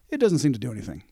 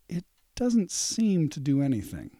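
First: It is said in a plain, casual way. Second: It is said in a slow, menacing way. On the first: Nothing is wrong with the item. "If you just say" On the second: Something bad is hidden behind the words. "Or if you say"

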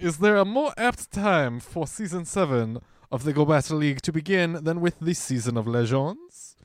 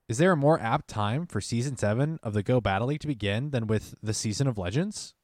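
First: It is read in a put-on posh butler voice. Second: It is read in his normal voice.

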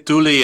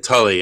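First: The name is pronounced with Spanish sounds. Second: The name is pronounced with English sounds. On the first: This is the form used in Argentina. "I say Tuli in Spanish" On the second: This is the form used in the U.S. "I say Tully in English"

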